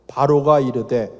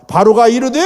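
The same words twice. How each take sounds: First: Said in the usual way. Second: 바로가 said louder, rising at the end; emphatic reading. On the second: Shown as a demonstration. Pastor rereading the verse, 바로가 pushed up. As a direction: lift and lean on 바로가.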